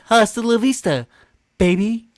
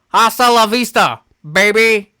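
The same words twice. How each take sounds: First: It is said in a put-on cartoon character voice. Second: It is said in an ordinary speaking voice. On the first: The speaker calls it right. "He says that in a Stewie voice" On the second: The speaker calls it wrong. "Oh no, I'm sorry"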